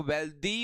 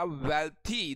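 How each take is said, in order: First: "वेल्दी" with a voiced d in place of th; wrong d pronunciation. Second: "वेल्थी" with an unvoiced th after the l; correct th pronunciation. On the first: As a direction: turn the th into द in "वेल्दी". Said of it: "इसको वेल्दी मत बोलिएगा". ("वेल्दी" में थ की जगह द बोलें) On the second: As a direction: aspirate the थ in "वेल्थी". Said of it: "वेल्थी बोला जाता है भाई". ("वेल्थी" में थ की आवाज़ निकालें) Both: Shown as a demonstration.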